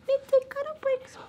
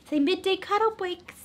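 First: High squeaky voice for the dog. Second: Said in the usual way. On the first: Pretend. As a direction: speak for the puppy, squeaky and high.

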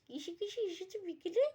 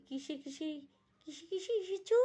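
First: Put-on much higher girly voice; girlfriends' voice. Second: Put-on high, excited girly question; eager girlfriends. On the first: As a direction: play the curious girlfriends. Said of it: "ডার্লিংরা বলছে". (মেয়েলি উঁচু গলায় প্রশ্ন) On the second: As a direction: ask like a thrilled girlfriend. (উৎসুক মেয়েলি প্রশ্ন)

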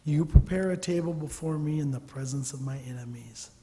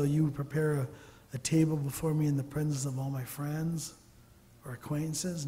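First: Said in the usual way. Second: Misquote the verse lightly, as if it said friends; playful wrong reading, friends instead of enemies; mock misquote. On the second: Shown as a demonstration. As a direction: read the wrong version with a knowing lightness. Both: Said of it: "No, enemies".

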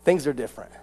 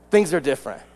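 The two takes are said the same way.

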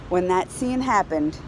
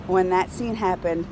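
Both takes have the same delivery.

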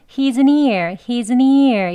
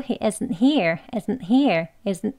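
First: He isn't here slurred like "he's a near"; louder, wrong take with isn't and here fused; run together. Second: He isn't here with a catch before here; isn't here, broken by an unreleased t; slight stop. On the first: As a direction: link isn't straight into here with no stop. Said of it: "이렇게 이어서 하진 않습니다". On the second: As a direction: block the air briefly after isn't. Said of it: "멈춤이 살짝 들어가야". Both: Shown as a demonstration.

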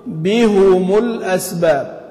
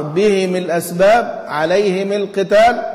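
First: بهم said slowly as bihumu, the ha and mim both rounded; drawn-out Quran recitation, بهم with damma on ha and mim; بهم with both vowels rounded. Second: بهم and عليهم with the ha and mim both in kasra, bihim, alayhim; Abu Amr's reading. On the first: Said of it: "هيضم إيه؟ الاثنين". (بهم بضم الهاء والميم ببطء) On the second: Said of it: "يقول أبو عمرو". (قراءة أبي عمرو: بهم وعليهم بكسر الهاء والميم) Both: Shown as a demonstration.

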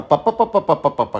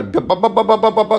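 First: Rapid "পা" with a lighter, voiceless P; softened string of "পা" syllables; weak P drill. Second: High, steady run of "বা" with firm B; rapid voiced "বা" syllables in one breath; strong B drill. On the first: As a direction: pop out "পা" evenly, pitch falling. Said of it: "উইক সিলবল পি". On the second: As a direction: drum out "বা" on a raised, held pitch. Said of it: "strong syllable যেটা বি". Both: Shown as a demonstration.

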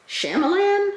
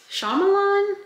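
First: "Shyamalan" with flat "a" as in "man", high questioning tone; uncertain pronunciation. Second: "Shyamalan" with broad "ah" in first and last syllables, very high; uncertain pronunciation. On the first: Guessing at the director's name, high unsure "Shyamalan" as SHAM-a-lan. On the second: Second guess at the director's name, high unsure "Shyamalan" as SHAH-ma-lahn. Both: Real, not acted. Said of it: "I don't know how to say this man's name".

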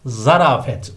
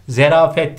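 First: ZARAFET starting za-; correct pronunciation. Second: ZERAFET starting ze-; wrong pronunciation. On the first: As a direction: say zarafet with a first. (doğru söyleniş, zarafet) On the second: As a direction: say zerafet with e first. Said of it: "değil". (yanlış söyleniş, zerafet) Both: Shown as a demonstration.

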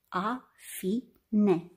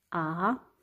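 First: Said in the usual way. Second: A-fi-ne said in three separate syllables A, fi, ne; split into syllables. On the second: Shown as a demonstration. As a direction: clap out A-fi-ne syllable by syllable. (A-fi-ne despărțit în silabe) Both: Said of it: "Să despărțim în silabe".

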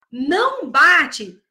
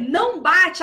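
First: Slow, drawn-out Não bate, each word weighted; slow firm command. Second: Said in the usual way. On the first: Shown as a demonstration. Teacher showing a firm no-hitting command to a child. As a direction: set a firm limit slowly, Não bate. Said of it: "Se você fala". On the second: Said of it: "se eu falar pra você".

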